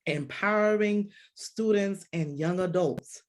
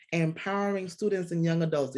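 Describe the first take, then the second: First: Put-on empowering students and young adults said slowly, each word weighted; emphatic title. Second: Said in the usual way. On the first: Shown as a demonstration. Host announces the episode's topic to listeners, slow and emphatic. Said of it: "host states the episode topic". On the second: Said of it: "host repeats the topic".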